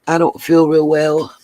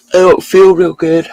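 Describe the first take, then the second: First: Said in the usual way. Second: Words stretched by a real yawn; yawning through it. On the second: Real, not acted. Streamer to chat, yawning after a long night. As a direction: say it mid-yawn, tired. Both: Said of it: "Sorry, I'm yawning".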